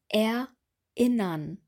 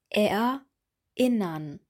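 First: The vowels start with a hard catch twice. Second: The same.

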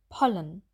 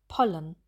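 The two takes are said the same way.

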